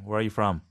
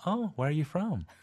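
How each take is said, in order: First: It is said in a blunt, flat tone. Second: It is said in a friendly, polite tone.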